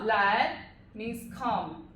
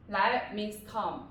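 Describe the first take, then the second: First: 来 said slowly and clearly, drawn out; slow it right down so 来 is clear; slow model phrase. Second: Said in the usual way. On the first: Shown as a demonstration. Teacher modelling slowly for students.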